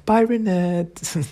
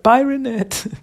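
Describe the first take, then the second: First: Slow, dreamy, higher sigh of a goodbye; lovestruck goodbye. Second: High, louder chirpy bye; cheery goodbye. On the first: Mike swooning over Renette as she leaves, slow lovestruck sigh. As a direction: say it with hearts in your eyes. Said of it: "his speech bubble is like a red heart". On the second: Mike saying goodbye to Renette, high chirpy farewell. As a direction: wave her off brightly. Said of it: "And Mike is like". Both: Retold or imitated.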